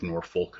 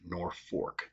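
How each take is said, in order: First: It is said the out-of-state way. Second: It is said the local Nebraska way. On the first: The speaker is from outside Nebraska. "people outside of the state will pronounce it Norfolk because of like Norfolk, Virginia" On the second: The speaker is a local Nebraskan. "in Nebraska and mainly central to northeast Nebraska, we pronounce it Norfolk"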